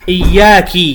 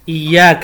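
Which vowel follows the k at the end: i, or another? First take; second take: i; another. First: The final k carries an i vowel. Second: The final k carries a vowel other than i. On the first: The speaker calls it wrong. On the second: The speaker calls it right.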